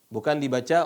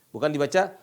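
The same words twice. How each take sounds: No difference in how they are said.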